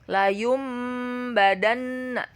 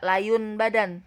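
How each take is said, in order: First: The nasal before the b sounds like m. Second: The nasal before the b sounds like n. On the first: The speaker calls it right. "tetapi berubah menjadi mim" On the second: The speaker calls it wrong. "tidak layun badan"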